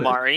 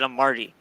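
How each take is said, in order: First: The name has no t sound before the ending. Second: The name has a t sound before the ending. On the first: The spelling is probably a typo. "or it could be Amari" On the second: The name is read as it is spelled. "It it it says A M A R T I, so I said Amarty"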